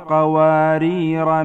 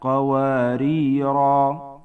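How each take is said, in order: First: The final long vowel is dropped in running speech. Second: The word ends with a long 'a' vowel. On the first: The word runs on into the next word. "فعند الوصل تلفظ على هذه الصورة" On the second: The reciter stops on this word. "الألفات التي تثبت كتابة ووقفا"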